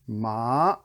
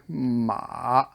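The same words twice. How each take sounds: First: The pitch rises upward. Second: The pitch dips low, then comes up. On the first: "the bike ramp" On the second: "the shovel, dig"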